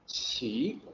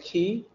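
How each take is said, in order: First: The word begins with a ch sound. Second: The word does not begin with a ch sound. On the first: The speaker calls it right. "but it's actually qi" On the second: The speaker calls it wrong. "you might say ki"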